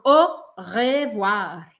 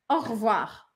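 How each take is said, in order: First: The first e of revoir is fully pronounced. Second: The first e of revoir is dropped. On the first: The speaker calls it wrong. "Eu não falo au revoir" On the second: The speaker calls it right. "Eu meio que corto esse primeiro E"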